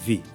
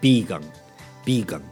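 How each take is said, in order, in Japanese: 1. V の音で始まるよ。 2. B の音で始まるよ。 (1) "英語っぽく言うともちろんV ですけど" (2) "日本語っぽく言うとビーガンね"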